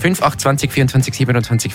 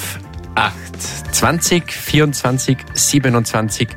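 First: The numbers are read very quickly. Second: The numbers are read at normal speed. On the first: The speaker calls it wrong. "Du hast gesagt schnell" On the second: The speaker calls it right. "im Normalgeschwindigkeit"

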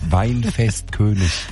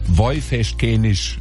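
First: The word is said in standard German. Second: The word is said in regional Palatinate dialect. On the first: "also Hochdeutsch" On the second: "Wie spricht man die andere aus?"

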